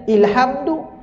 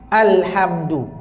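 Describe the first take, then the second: First: The word begins with an 'i' vowel. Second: The word begins with an 'a' vowel. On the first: The speaker calls it wrong. "dia bukan baca ilhamdu" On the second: The speaker calls it right.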